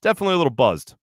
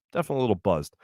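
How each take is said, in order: First: Said in the usual way. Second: Dropped low and soft; quiet. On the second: Real, not acted. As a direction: say it quietly, as an aside.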